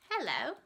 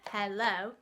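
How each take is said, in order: First: The pitch rises, then falls at the end. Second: The pitch stays flat throughout the word.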